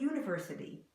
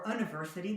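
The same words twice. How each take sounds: First: It starts with a Y sound. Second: It starts with a plain vowel sound. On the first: The speaker calls it right. "but university. We put a Y in there that isn't there" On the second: The speaker calls it wrong. "not university or university"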